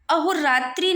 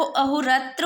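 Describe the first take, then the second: First: अहोरात्रि ending in tri; अहोरात्रि with a clear tri ending; wrong i ending. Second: अहोरात्र ending in tra, no i; अहोरात्र finished on a short schwa. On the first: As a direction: stress the final i of अहोरात्रि as the wrong form. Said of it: "अहोरात्रि नहीं होता है". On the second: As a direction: correct it to अहोरात्र with a plain tra. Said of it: "त्री की मात्रा गलत है". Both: Shown as a demonstration.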